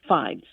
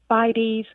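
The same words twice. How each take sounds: First: The word is said with one syllable. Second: The word is said with two syllables.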